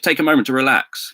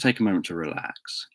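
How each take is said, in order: First: The phrase is spoken in a tense, unrelaxed way. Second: The phrase is spoken in a calm, relaxed way. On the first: The speaker calls it wrong. "You don't say" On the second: The speaker calls it right. "you say it in a relaxed way"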